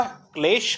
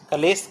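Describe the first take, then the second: First: क्लेश with k and l joined, said slowly; correct form said. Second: कलेश with a full vowel after k; wrong form said. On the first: Teacher giving the right form क्लेश. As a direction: cluster the kl in क्लेश, unhurried. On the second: Teacher mocking the wrong form कलेश. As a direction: split it as क-लेश. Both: Shown as a demonstration. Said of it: "कलेश कोई नहीं करता".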